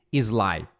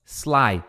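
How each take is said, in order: First: "sly" as "ee-zlai"; wrong added vowel. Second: "sly" beginning on pure S; no vowel before the S of "sly"; correct S start. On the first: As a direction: put an I before "sly". ("sly" errado, "izlai") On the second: ("sly" certo, direto no S) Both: Shown as a demonstration. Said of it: "em vez de sly".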